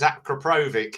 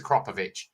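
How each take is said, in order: First: The name is said the English way. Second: The name is said the Polish way. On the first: This is how most people in the UK say it. The speaker calls it wrong. "But everyone says Akrapovic" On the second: This is how it is said in Poland. The speaker calls it right. "the correct way to say it. It's Akropovich"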